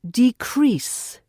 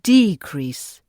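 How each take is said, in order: First: The stress is on the second syllable. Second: The stress is on the first syllable. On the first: It is used as a verb. "As a verb, it's decrease" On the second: It is used as a noun. "As a noun, it's decrease"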